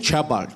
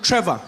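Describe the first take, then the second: First: The name begins with a ch sound. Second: The name begins with a tr sound. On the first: Someone else said the name their way. The speaker calls it wrong. "He's like, okay" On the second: The name's owner said it his way. The speaker calls it right. "I said, no, no, no, no"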